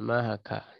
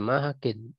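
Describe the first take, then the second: First: The word ends in a plain a vowel. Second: The word ends in -in with n. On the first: The name is treated as not taking tanwin. "sehingga dibaca mahaka" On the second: The name is treated as taking tanwin. "jadi kalau munsharif ya mahakin"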